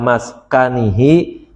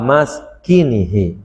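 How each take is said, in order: First: The vowel after the k is 'a'. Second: The vowel after the k is 'i'. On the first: "boleh dibaca fathah kaf" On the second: "boleh dibaca kasrahnya"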